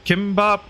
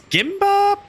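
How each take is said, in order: First: The word begins with a hard K sound. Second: The word begins with a soft G sound.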